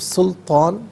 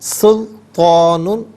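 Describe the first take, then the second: First: The word ends clipped, without the '-un' ending. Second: The word ends with a full '-un' ending. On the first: The reader stops at this word. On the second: The reading continues without stopping.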